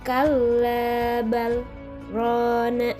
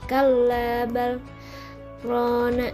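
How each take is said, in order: First: The pause is held without taking a breath. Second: A breath is taken during the pause. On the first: The speaker calls it right. "tapi ditahan dulu tanpa nafas ya" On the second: The speaker calls it wrong. "Nggak kayak gini"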